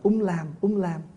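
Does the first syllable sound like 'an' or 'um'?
um. The first syllable is pronounced like um. This is how Northerners recite it. "mình tụng theo người Bắc là"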